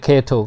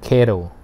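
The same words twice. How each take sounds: First: It is said without an American accent. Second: It is said with an American accent.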